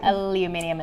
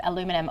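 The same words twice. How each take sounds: First: "aluminium" with five syllables, al-yoo-MIN-ee-um; British-style aluminium. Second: "aluminum" with four syllables, a-LOO-mi-num; American aluminum. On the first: Presenter contrasting local usage, aluminium as al-yoo-MIN-ee-um. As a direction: stress MIN and sound the extra "i" in "aluminium". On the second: Presenter contrasting US usage, aluminum as a-LOO-mi-num. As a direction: stress LOO, no extra "i" in "aluminum". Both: Shown as a demonstration. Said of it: "aluminium instead of aluminum".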